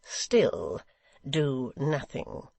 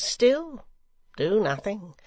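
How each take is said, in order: First: Clipped-off, slow cold warning. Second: Louder, much higher on still; taunting climax. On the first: Secretary coldly warning Hugh, slow and cold. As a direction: let it fall coldly on still. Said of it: "said Gashford coldly". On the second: Secretary goading the rioters, high ringing taunt. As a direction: throw still up high, then drop. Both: Acted.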